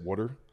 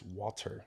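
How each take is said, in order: First: The first vowel sounds like 'uh', as in 'wutter'. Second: The first vowel is not an 'uh' sound. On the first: The speaker calls it wrong. "I used to say it water ... I was saying it W U T T E R" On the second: The speaker calls it right. "They're like, no, it's water"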